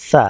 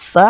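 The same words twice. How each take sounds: First: সা with a soft, light s; soft sibilant. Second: সা with a firm, sharp s; firm sibilant. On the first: Teacher contrasting two Arabic letters, the soft one. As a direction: soften the s at the start of সা. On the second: Teacher contrasting two Arabic letters, the firm one. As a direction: give সা the harder s sound. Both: Shown as a demonstration. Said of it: "এটা নরম".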